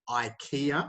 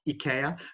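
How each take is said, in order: First: It is pronounced the English way. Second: It is pronounced the European way. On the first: "in English, we say IKEA" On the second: "not IKEA"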